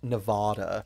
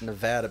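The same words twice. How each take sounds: First: It is said the Californian, outsider way. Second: It is said the local Nevadan way. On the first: The speaker calls it wrong. "ridiculous amount of Californians and T V celebrities pronouncing it Nevada" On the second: The speaker calls it right. "It's Nevada, baby"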